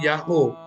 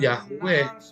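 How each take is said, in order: First: The name ends with an 'oo' sound. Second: The name ends with a 'weh' sound. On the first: The speaker calls it right. "akan jadi Yahoo" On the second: The speaker calls it wrong. "bacanya bukan Yahweh"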